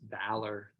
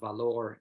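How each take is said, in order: First: It is pronounced with English sounds. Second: It is pronounced with Spanish sounds.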